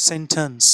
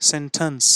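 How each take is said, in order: No difference in how they are said.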